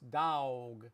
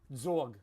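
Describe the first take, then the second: First: Said in a Texas accent. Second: Said in a New York accent, like zog. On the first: "In Texas" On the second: "In parts of New York"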